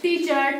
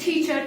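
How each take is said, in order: First: The t is said without a puff of air. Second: The t is said with a puff of air. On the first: The speaker calls it wrong. "it's not looking like a good" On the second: The speaker calls it right. "So when we just aspirate, so it makes a teacher"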